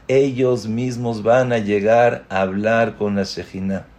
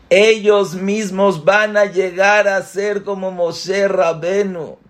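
First: Said in the usual way. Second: Much higher, building with wonder; excited emphasis. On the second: Shown as a demonstration. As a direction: lift "Ellos mismos" up high and marvel at it. (con asombro y entusiasmo, mucho más agudo) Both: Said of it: "repeated with emphasis".

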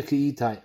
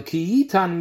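First: Ki Yitain, last syllable a gliding "tayn"; written-form reading. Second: Ki Yitan, last syllable an open "tahn"; read-aloud form. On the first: Teacher likening the two readings, this one Ki Yitain with "ain". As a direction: say Yitain with a diphthong before the n. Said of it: "der Ksiv ist Yitain". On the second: Teacher likening the two readings, this one Ki Yitan with "an". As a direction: say Yitan with no glide before the n. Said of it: "Der Kri ist Yitan". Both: Shown as a demonstration.

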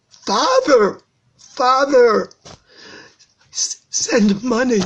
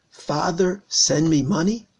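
First: Desperate, high cry for help; drawn-out, wailing plea of a son; anguished crying. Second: Said in the usual way. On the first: Acted. Rav shows how son begged his father, crying anguish. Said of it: "you hear the child crying".

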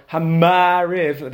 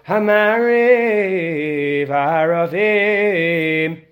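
First: "Hamariv" with the mem held and harped on; "Hamariv" said with a dragged-out mem; heavy mem. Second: "Hamariv aravim" with the mem touched lightly and left quickly; just touch the m in "Hamariv aravim", no dragging; "Hamariv aravim" flowing, the mem barely touched. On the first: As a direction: lean hard on the m in "Hamariv". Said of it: "just gonna come out sounding like you're sick". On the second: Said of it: "you touch it, you say it". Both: Shown as a demonstration.

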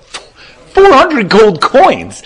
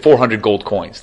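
First: Loud, high, drawn-out incredulous cry; acted outrage, pitched way up and slow; stunned disbelief. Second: Said in the usual way. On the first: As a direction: repeat the price in utter shock, stretching every word. Rich man balks at the price.

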